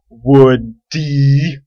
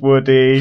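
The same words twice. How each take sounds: First: Each syllable of the name is strongly emphasized. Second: The name is said smoothly, without extra emphasis.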